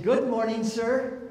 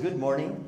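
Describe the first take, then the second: First: Higher, bright and welcoming greeting; a chirpy young clerk's good morning; cheerful counter clerk. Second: Said in the usual way. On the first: Retold or imitated. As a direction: greet him like a sunny rental clerk. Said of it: "young woman have a nice attitude?". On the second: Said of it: "And I said".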